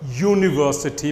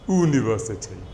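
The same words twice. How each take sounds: First: The word begins with a y sound. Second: The word begins with a plain vowel sound. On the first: The speaker calls it right. "the first sound is a y" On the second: The speaker calls it wrong. "not university"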